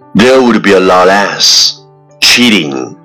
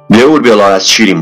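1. 语速适中，节奏平稳。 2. 尽可能快，一口气说完。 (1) "let's repeat after me" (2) "一口气最快语速"

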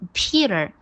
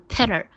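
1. 第一个元音是长音。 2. 第一个元音是短音。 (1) "Peter 是长音的e" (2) "所以不要读Peter"

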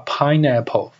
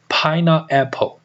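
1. 听起来就是普通的单词 pineapple。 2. 听起来像 peanut 后面接 apple。

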